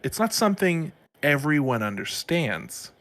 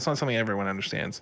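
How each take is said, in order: First: It is spoken slowly with long pauses. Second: It is spoken quickly without long pauses. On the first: It sounds profound and important. The speaker calls it right. "make long pauses to make it sound like you're saying something more profound" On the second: It sounds less impactful and charismatic. The speaker calls it wrong. "If I say that quickly"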